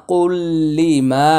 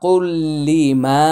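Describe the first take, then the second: First: "কুল্লি মা" chanted slowly in melodic tilawat voice; recited. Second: Said in the usual way. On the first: Shown as a demonstration. Teacher showing the merged lam, "কুল্লি মা" in melodic chant. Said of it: "তানউইনের পরে লাম ইদগামি বিলা গুন্না". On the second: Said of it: "মিম আলিফ জবর মা".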